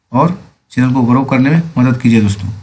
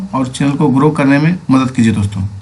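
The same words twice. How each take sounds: The two takes are said the same way.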